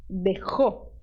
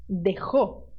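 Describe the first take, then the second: The two takes are said the same way.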